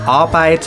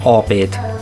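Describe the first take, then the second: First: The first vowel is a clear open a. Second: The first vowel sounds closer to o. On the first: "Wir sagen also nicht Arbeit" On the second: "das A mehr als O"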